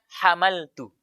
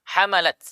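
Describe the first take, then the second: First: The word ends with a 'tu' syllable. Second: The word ends with a bare, unvoweled t sound. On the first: It means I carried. The speaker calls it wrong. "Namun kita baca hamaltu" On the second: It means they carried. The speaker calls it right. "Lafal hamalat harusnya taknya sukun"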